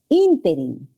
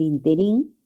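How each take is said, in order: First: The stress is on the first syllable. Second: The stress is on the last syllable. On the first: The speaker calls it right. "la palabra no es interín, es interín" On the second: The speaker calls it wrong. "si se pronuncia así, en el interín, sería aguda"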